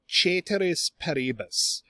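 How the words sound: It is said with a Latin-style pronunciation. "if you have a good Latin accent, you might say"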